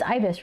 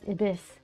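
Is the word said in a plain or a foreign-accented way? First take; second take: plain; foreign-accented. First: The word is said in a plain local way. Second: The word is said with a foreign-sounding accent. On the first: The speaker calls it right. "It's ibis, right?" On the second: The speaker calls it wrong. "I forever thought it was ibis. I was saying it with an accent"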